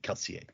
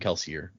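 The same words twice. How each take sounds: First: The name is pronounced in a French way. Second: The name is pronounced in an English way. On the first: This is the technically correct form. "technically, the pronunciation would be" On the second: This is how everyone usually says it. "no one says it like that. Even Brandon in interviews and stuff calls him Kelsier"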